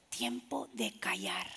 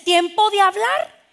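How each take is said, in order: First: Slow whisper, drawn out; hushed. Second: Raised, slow, ringing call ending on a rise; high and loud, drawing the words out; loud speaking time. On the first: Preacher shows the congregation a time to keep silent, whispering. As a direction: drop right down to a whisper. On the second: Preacher shows the congregation a time to speak, loudly. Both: Shown as a demonstration.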